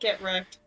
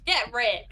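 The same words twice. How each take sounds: First: It is said in the speaker's natural voice. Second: It is said in a put-on accent.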